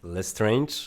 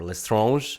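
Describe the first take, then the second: First: The name is pronounced the English way. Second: The name is pronounced the French way.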